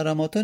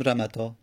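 First: رماتا with its alef sounded as long "aa"; long middle vowel. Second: رمتا without the alef, a short middle "a"; short middle vowel. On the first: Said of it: "هیچگاه رماتا نمیگیم". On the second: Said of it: "میندازیم میگیم رمتا". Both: Shown as a demonstration.

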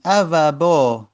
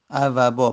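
First: Each root letter drawn out slowly; slow spelling out. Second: Said in the usual way. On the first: Shown as a demonstration. Teacher asking students to pay attention, slowly spelling out ا و با. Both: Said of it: "دقت کنید".

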